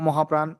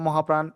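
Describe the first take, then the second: The two takes are said the same way.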